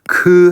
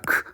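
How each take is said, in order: First: The k sound is followed by a full vowel. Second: The k sound is made with no vowel after. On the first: The speaker calls it wrong. "크 하는 게 아니라" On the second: The speaker calls it right. "크 하는 소리를 내고"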